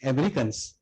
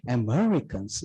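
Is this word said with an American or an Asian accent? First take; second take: Asian; American. First: It is said with an Asian accent. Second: It is said with an American accent. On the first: The dictation software misrecognizes it. The speaker calls it wrong. "We say Americans" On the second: The dictation software recognizes it. The speaker calls it right. "The moment you say Americans"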